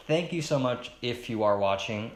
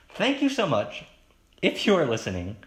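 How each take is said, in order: First: Said in the usual way. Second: High, loud burst of thanks; emphatic redo. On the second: Real, not acted. Podcaster thanking listeners after a slip, emphatic. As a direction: gush the thanks, starting high and dropping.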